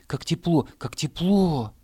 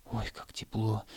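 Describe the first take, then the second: First: "как тепло" cried out higher and louder; excited grass. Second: Soft delight. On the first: Grass blades crying out to the hare, excited. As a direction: grass blades squealing with delight. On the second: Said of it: "Заяц стал прыгать и ложиться". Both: Acted.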